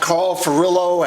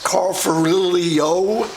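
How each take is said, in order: First: The name is pronounced the usual way. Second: The name is pronounced in a mangled way.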